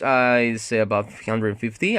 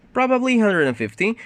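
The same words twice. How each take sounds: First: Said in the usual way. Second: "Probably hundred and fifty" with a high, vague rise on "Probably"; vague approximate tune. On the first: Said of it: "You can use intonation to make it". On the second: Shown as a demonstration. Teacher modelling a vague approximate answer, high uncertain tune. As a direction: lift "Probably" high to sound unsure of the number. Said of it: "You can use intonation to make it, like, sound like".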